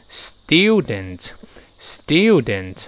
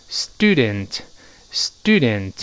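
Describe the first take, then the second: First: Slow "student" as British "styoo-dent"; 英式读音. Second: Slow "student" as American "stoo-dent"; no y after the t in "student"; 美式读音. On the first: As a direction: put a clear y after the t in "student". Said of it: "像英国人读成". (英式 student，慢读，带耶音) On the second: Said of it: "而美国人直接读成". (美式 student，慢读，不带耶音) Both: Shown as a demonstration.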